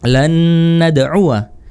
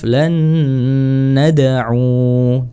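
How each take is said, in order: First: The word ends with a short -wa syllable. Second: The word ends on a long u vowel. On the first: The reading continues on without stopping. "kalau wasal" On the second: The reading stops at this word. "Kalau waqaf, disukunkan wawunya, u-nya jadi panjang"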